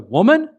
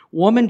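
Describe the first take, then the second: First: It is said rudely, like a scolding husband. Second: It is said gently and with respect.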